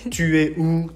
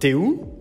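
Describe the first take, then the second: First: The pronoun is said in full. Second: The pronoun is shortened into the verb.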